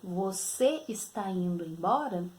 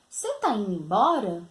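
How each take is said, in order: First: The verb is said in full, two syllables. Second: The verb is shortened to a single syllable. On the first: It is formal, standard speech. "na linguagem formal, da maneira correta" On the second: It is casual speech with someone close. "foi usada a linguagem informal"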